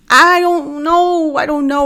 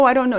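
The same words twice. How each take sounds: First: High, very slow drawn-out I don't know; drawn-out stall. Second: Said in the usual way. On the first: Acted. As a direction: stretch it out, unsure. Stalling while thinking it over.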